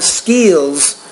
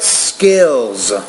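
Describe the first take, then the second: First: The vowel is long, like in meat. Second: The vowel is short, like in mitt. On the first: The speaker calls it wrong. "You want to say the word not skills" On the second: The speaker calls it right. "but skills"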